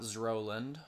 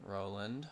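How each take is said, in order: First: Zroland with a buzzing Z before the R; mistaken pronunciation. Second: Said in the usual way. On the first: Shown as a demonstration. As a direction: say Zroland, a stray Z stuck onto Roland. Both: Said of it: "Not Zroland".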